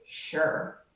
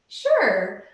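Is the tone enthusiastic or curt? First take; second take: curt; enthusiastic. First: It is said flatly and curtly. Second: It is said brightly and enthusiastically.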